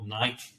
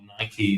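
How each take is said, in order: First: It is said the non-American way. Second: It is said the American way.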